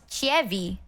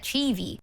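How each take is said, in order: First: An extra vowel is sounded in the middle. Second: No extra vowel is sounded in the middle. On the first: The speaker calls it wrong. "not pronounced Chievi" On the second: The speaker calls it right. "instead Chivi"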